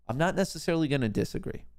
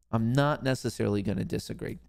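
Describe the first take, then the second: First: Higher-pitched, quicker take; quick disclaimer. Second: Measured, more deliberate take; deliberate repeat. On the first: Host hedging on the viewer's takeaway, quick disclaimer. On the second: Host repeating the hedge to the viewer, deliberately. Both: Real, not acted. Repeats the same line for effect.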